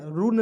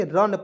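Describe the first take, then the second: First: "रून" said as "roon", with a long oo; "रून" with the vowel stretched to "oo"; wrong pronunciation. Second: "रन" said as "run", with a short a; "रन" with a short vowel like "a" in "about"; correct pronunciation. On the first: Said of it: "रून नहीं पढ़ेंगे". ("रून" को लंबे ऊ के साथ गलत उच्चारण) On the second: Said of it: "रन पढ़ेंगे". ("रन" का सही उच्चारण, छोटा अ) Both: Shown as a demonstration.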